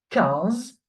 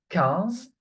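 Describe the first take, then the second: No difference in how they are said.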